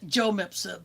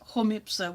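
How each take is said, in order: First: The name is pronounced with English sounds. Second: The name is pronounced with Spanish sounds. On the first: The speaker calls it wrong. "He pronounces it" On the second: The speaker calls it right. "which would be the correct Spanish pronunciation"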